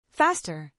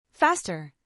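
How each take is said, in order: Both takes have the same delivery.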